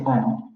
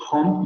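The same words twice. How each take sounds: First: Home said as om; dropped h. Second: Home with the h sound; standard home. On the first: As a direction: drop the h, start home on the vowel. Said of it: "van a decir". (home sin h, como om) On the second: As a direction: say home with a breathy h. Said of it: "en lugar de decir". (home con h aspirada) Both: Shown as a demonstration.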